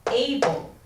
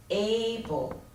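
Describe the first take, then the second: First: Said in the usual way. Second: "able" drawn out as A-ble; teacher sounding out "able", A held longer; stress on first syllable. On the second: Shown as a demonstration. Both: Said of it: "Stress on the first syllable".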